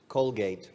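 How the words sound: It is said with an English pronunciation. "¿Cómo se dice en inglés?"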